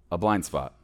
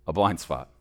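No difference in how they are said.

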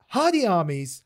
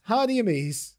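First: "Armies" said like the plural of army; trying out pronunciation. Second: "Amies" opening on a plain A, no AR; trying out pronunciation. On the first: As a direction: say "Hardy Armies" with an AR opening. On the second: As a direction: say "Hardy Amies" as written, unlike "armies". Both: Shown as a demonstration. Tries two pronunciations of a name.

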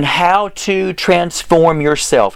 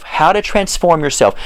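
First: Slow, word-by-word dictation. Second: Said in the usual way. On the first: Real, not acted. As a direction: spell it out slowly for listeners typing it in. Dictating what to type in.

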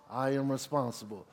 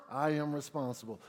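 The two takes are said the same way.

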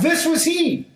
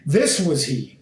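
First: This was he cried out high. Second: Said in the usual way. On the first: Shown as a demonstration. John the Baptist cries out to the crowd, raised high. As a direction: call out This was he, pitched high. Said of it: "cried out".

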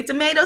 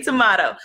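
First: Tomato said "tuh-MAY-doh"; American-style tomato, middle syllable rhyming with "may"; tomato with long A. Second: Tomato said "tuh-MAH-toh"; British-style tomato, middle syllable like "ma"; tomato with broad A. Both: Shown as a demonstration. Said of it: "some people say tomato".

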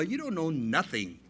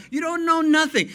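First: Said in the usual way. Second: "know" shouted high and loud; a loud, rising preacher's cry on "know"; emphatic shout. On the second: Shown as a demonstration. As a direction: punch "know" hard. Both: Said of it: "repeated punchline".

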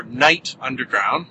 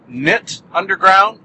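First: "Night" said with a long i; long-vowel "Night" before "Underground"; KNYTT as "Night". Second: "Knit" said with a short i; short-vowel "Knit" before "Underground"; KNYTT as "Knit". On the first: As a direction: say "Night" to rhyme with "bite". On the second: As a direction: say "Knit" to rhyme with "bit". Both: Shown as a demonstration. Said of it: "tell me how you would pronounce it".

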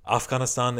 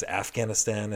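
First: Afghanistan with broad ah vowels, Af-GHAHN-is-tahn; respectful pronunciation. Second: Afghanistan with flat a as in cat, af-GAN-is-tan; careless American pronunciation. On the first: Respectful American naming the country, Afghanistan with broad ah vowels. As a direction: say Afghanistan the way locals do, open ah sounds. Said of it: "if they're more respectful, knowledgeable Americans". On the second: Ignorant American saying Afghanistan with flat cat vowels. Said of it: "they're other Americans". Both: Shown as a demonstration.

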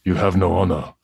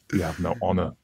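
First: The samurai line with an Australian accent creeping in; Australian-tinged attempt at the character voice; half-Australian samurai voice; slipping into Australian accent. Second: Samurai line, softer and more restrained; softer stern samurai voice for the quote; lightly voiced samurai, held back; the character voice. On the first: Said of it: "I was gonna do it in Australian accent". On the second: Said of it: "I don't have to do The Voice". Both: Shown as a demonstration.

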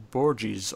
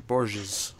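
First: Borges said as BOR-jeez; Borges, "dg" sound in the middle; first pronunciation option. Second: Borges said as BOR-zhiz; Borges, soft zh and short final vowel; alternative pronunciation. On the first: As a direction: say Borges with a hard j and an "eez" ending. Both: Shown as a demonstration. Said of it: "say it both ways".

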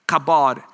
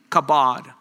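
First: "Kabod" said slowly as "ka-BOD" with a falling end; slow teaching pronunciation. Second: "Kabod" said again as "kuh-BOD" with a falling end; repeated pronunciation. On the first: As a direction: teach the word "Kabod" clearly, syllable by syllable. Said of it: "the literal word is". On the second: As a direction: say "Kabod" once more, slowly and firmly. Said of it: "K A B O D". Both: Shown as a demonstration.

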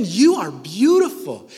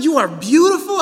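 First: Said in the usual way. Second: "beautiful" said higher and louder; emphatic repeat. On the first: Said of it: "I'm gonna say it again". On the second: Shown as a demonstration. Preacher tells the women again, "beautiful" higher and louder. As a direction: lift and punch "beautiful" on the repeat. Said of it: "one more time".

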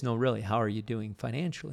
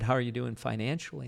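First: Really pushed with a rising tune, the rest said fast; insistent stress on really. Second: Said in the usual way. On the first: Retold or imitated. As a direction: press hard on really to insist. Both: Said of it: "She goes".

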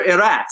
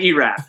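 First: Erat said the Czech way, not EE-rat; Czech pronunciation. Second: Erat said the familiar English way, EE-rat; American pronunciation. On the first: Acted. Imagined Nashville shopper greeting the player, Erat pronounced Czech-style. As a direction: give Erat the corrected native vowels. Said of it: "nobody's going up in Nashville at the grocery store saying". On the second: Shown as a demonstration. What Nashville locals really say, Erat in American pronunciation. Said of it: "they're saying Erat for sure".

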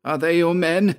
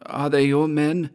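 First: High, impatient repeated question; insistent, high-pitched demand. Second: High-pitched character question; higher voice, first asking; questioning Georg. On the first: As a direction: press for an answer, pitched well up. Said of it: "he repeated impatiently". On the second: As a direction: ask it in a raised voice. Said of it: "asked Georg". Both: A narrator's reading.

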